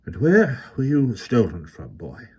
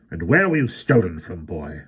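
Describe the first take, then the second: First: Put-on old man, soft and lisping, heavy Welsh accent. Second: Put-on soft old man. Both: A narrator's reading. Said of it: "soft and lisping with a heavy accent".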